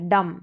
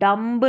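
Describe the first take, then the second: First: No b sound is heard after the m. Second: A b sound is heard after the m. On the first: The speaker calls it right. "बी silent है" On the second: The speaker calls it wrong. "डम्ब नहीं है"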